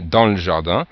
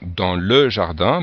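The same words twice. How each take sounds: First: The vowel of 'le' is dropped. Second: The vowel of 'le' is fully pronounced. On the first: The speaker calls it right. "Si on lit un petit peu rapidement" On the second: The speaker calls it wrong. "on ne va pas dire"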